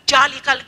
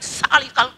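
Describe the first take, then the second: First: The word begins with a j sound. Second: The word begins with an s sound. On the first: "tidak ada ja, bukan ja itu" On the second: "tidak ada salika"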